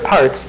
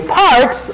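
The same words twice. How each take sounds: First: Said in the usual way. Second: Parts hit high and hard, alone; stress on parts. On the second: Real, not acted. Preacher to congregation, stressing parts high and firm. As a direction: lean on the word parts. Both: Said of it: "I emphasize the word parts".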